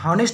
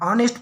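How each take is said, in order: First: The word starts with an audible h sound. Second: The word starts with a vowel, no h sound. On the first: The speaker calls it wrong. "हॉनेस्ट नहीं पढ़ते" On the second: The speaker calls it right. "मतलब H यहाँ पे silent है। तब उच्चारण पे ध्यान देना है, ऑनेस्ट पढ़ना है"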